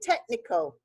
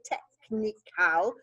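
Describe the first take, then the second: First: The word is said quickly with sounds run together. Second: The word is said slowly with each sound stretched. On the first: "We say technical" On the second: "We don't say technical"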